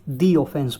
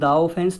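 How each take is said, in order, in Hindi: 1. 'The' को लंबी 'thee' ध्वनि से बोला जाता है। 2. 'The' को छोटी 'thuh' ध्वनि से बोला जाता है। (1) "दी ऑफेंस बोलेंगे" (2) "द ऑफेंस नहीं बोलेंगे"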